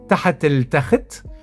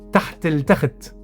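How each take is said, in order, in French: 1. Le premier mot se prononce avec deux syllabes. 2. Le premier mot est condensé en une seule syllabe. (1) "d'une manière complète" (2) "d'une manière un peu contractée"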